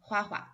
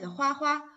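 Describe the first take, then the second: First: The second syllable is light and toneless. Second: The second syllable keeps its full high tone. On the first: "put the second 花 as the neutral tone" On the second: "with the full pronunciation"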